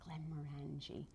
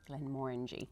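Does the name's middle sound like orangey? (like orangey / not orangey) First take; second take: not orangey; like orangey. First: The middle part does not sound like orangey. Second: The middle part sounds like the word orangey. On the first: This is the common way people say it. The speaker calls it wrong. "That is what you hear all the time" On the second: This is how the company says it. The speaker calls it right. "So it's more orangey"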